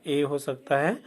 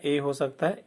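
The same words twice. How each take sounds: First: ए repeated as a clear ay; teacher repeating the ए sound. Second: ए said as a clear ay; teacher sounding out ए. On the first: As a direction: say ए once more as ay. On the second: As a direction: voice ए as a plain ay vowel. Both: Shown as a demonstration. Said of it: "ए का उच्चारण क्या क्या हो सकता है".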